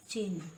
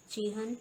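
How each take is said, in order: First: चिन्ह as one syllable, "chinh"; correct pronunciation. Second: चिन्ह as "chihan"; wrong pronunciation. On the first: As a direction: join the cluster in चिन्ह. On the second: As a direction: break चिन्ह into two syllables, chi-han. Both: Shown as a demonstration. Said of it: "व्यंजन गुच्छों की अशुद्धियाँ".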